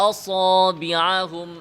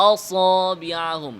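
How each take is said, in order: The two takes are said the same way.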